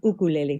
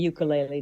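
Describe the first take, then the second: First: The word begins with an 'oo' sound. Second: The word begins with a 'yoo' sound. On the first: The speaker calls it right. "but it's uk- ukulele" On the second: The speaker calls it wrong. "I grew up saying ukulele too"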